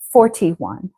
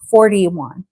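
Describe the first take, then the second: First: The middle consonant is a clear T. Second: The middle consonant sounds like a quick D. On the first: It is a polite, careful way to say it. "it is polite to have the T. Polite would be" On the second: It is a casual way to say it at home. "what I would say at home to my son is"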